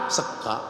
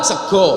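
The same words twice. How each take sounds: First: "sega" with an open a ending; Ngapak pronunciation. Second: "sego" with rounded o vowels; Javanese pronunciation. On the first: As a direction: drop "sega" low and soft, open a. ("sega" logat Ngapak berakhiran a, pelan) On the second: ("sego" logat Jawa berakhiran o) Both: Shown as a demonstration.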